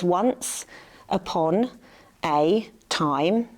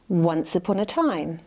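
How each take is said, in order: First: Each word is said separately with pauses between. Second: The words flow together as one smooth group.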